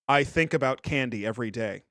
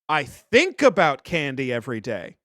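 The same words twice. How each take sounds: First: It is said in a less fey manner. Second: It is said in a fey, camp manner.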